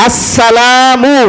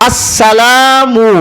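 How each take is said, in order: Both takes have the same delivery.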